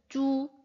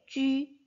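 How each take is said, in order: First: The vowel is a plain back 'oo' sound. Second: The vowel is a rounded front 'ü' sound. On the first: The speaker calls it wrong. "무언가에 이끌린 것처럼 이렇게 발음을 합니다. 그런데 그런 발음은 없다고" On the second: The speaker calls it right. "발음은 동일하게 쥐, 취, 쉬라고 읽어주셔야 됩니다"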